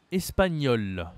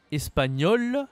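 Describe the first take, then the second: First: ESPAGNOL with sounded l, falling tune; identical pronunciation, feminine. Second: ESPAGNOL high and loud, rising, sounded l; identical pronunciation, masculine. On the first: Teacher showing both genders sound alike, feminine take. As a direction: close the pair, "espagnol" going down. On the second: Teacher showing both genders sound alike, masculine take. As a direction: list "espagnol" first, tune going up. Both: Shown as a demonstration. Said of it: "La prononciation est ici identique".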